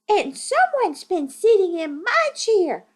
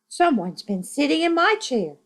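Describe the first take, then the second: First: It is said in a tiny, high voice. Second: It is said in a medium-pitched voice.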